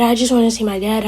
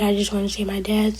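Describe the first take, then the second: First: Said in the usual way. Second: Quieter, softer, almost whispered; fading whisper. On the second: Retold or imitated. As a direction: drop it to a soft broken whisper. Grieving son repeats his plea.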